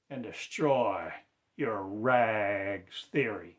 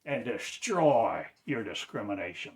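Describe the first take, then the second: First: "destroy" drawn out slowly, loud and falling; slow the repeat right down; slow emphatic repeat of "destroy". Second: "destroy" hit louder with a falling tune; preacher stressing "destroy". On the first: Repeated call, slowed down. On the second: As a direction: lean on "destroy" as a command. Repeated call to destroy. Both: Real, not acted.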